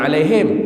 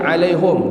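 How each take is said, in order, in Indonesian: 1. Vokal setelah h adalah bunyi i. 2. Vokal setelah h adalah bunyi u. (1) "Dia tak baca 'alaihim" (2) "Dia baca 'alaihum, dia dhammil ha"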